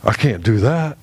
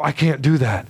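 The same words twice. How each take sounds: First: Lower, mock whiny voice of a proud dad; mocking a proud father's refusal; proud whiny excuse. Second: Said in the usual way. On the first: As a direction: sulk it out like a stubborn father refusing. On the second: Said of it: "we'll stop and we'll go".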